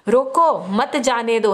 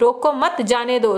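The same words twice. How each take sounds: First: There is a pause after 'roko'. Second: There is a pause after 'mat'.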